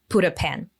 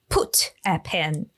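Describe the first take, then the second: First: The T in 'put' is a soft flap. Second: The T in 'put' is a clear T. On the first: "actually he pronounces like put a pen" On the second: "you got used to hearing put a pen"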